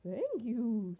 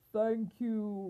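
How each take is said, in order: First: Lightly voiced unicorn thanks; a hint of a grateful unicorn. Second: Louder lion's roar of thanks; grateful storybook lion. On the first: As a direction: give thanks as a storybook unicorn. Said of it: "said the unicorn". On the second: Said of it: "roared the lion". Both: A narrator's reading.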